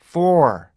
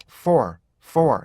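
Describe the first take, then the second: First: For drawn out in full; long, strong for; full-length for. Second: For shorter and lighter; reduced, unemphatic for; weak for. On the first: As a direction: stretch for out, falling at the end. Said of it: "이렇게 읽는 것보다는요". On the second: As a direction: say for lightly, as inside a sentence. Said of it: "보통 이렇게 약하게". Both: Shown as a demonstration.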